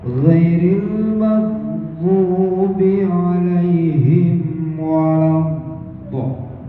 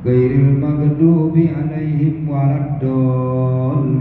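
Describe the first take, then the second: First: The last word starts with an emphatic dh sound. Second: The last word starts with a plain d sound. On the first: The speaker calls it right. "Dha itu kalau makhraj kan merengkol" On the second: The speaker calls it wrong. "Tapi kita biasa"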